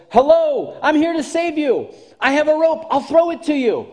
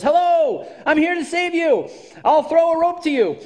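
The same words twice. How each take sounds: First: High, loud hail; calling down from the ship. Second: Loud, high hail; calling down from the ship. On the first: Captain calling to the second person in the water, loud and high. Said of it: "The captain calls down to the second person and says". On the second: Captain calling down to a drowning person, loud and high. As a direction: shout down to the water, high and loud. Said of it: "the captain calls down and says". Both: Retold or imitated.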